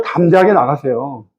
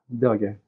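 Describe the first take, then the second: First: Said in the usual way. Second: 담대하게 repeated much softer, falling; soft echo. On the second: Shown as a demonstration. Preacher softly repeating the key word to the congregation. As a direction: let 담대하게 sink in quietly.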